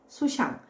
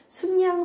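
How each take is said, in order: First: The second syllable starts with an s sound. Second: The second syllable starts with an n sound. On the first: The speaker calls it wrong. "이렇게 발음할 수도 있다는 것이죠" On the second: The speaker calls it right. "순양, 순염소로 발음되기도 하지만"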